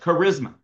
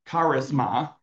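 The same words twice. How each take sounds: First: It is pronounced the English way. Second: It is pronounced the Greek way. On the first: "just say it like in English" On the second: "I think the proper way to say it"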